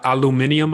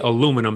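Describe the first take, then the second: First: The word is said imitating the other speaker. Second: The word is said the speaker's usual way. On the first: "the way you say it. aluminium, I believe you said" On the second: "I say aluminum, so we pronounce it a little differently"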